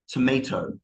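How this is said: It is said in an American accent. "Americans will say tomato"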